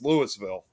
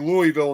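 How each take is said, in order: First: The s in the name is pronounced. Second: The s in the name is silent. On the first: This is how the Illinois town is called. "but over here it's Louisville" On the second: This is how the Kentucky city is called. "It's called maybe Louisville in Kentucky"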